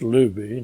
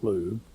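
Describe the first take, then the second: First: The name is said with two syllables. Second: The name is said with one syllable. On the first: The speaker calls it right. "pronounce the name right, it's Luby" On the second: The speaker calls it wrong. "not Lube"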